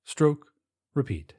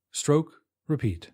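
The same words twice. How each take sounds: The two takes are said the same way.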